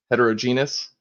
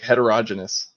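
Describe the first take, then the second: First: Heterogeneous as het-er-oh-JEE-nee-us; stress on GE. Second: Heterogeneous as het-er-ODGE-en-us; stress on ROG. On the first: Showing variant science pronunciations, heterogeneous as het-er-oh-JEE-nee-us. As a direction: open out heterogeneous with a long oh, then JEE. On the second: Showing variant science pronunciations, heterogeneous as het-er-ODGE-en-us. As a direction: hit the third syllable of heterogeneous, short, like ODGE. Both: Shown as a demonstration. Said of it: "heard that said, like, four or five different ways".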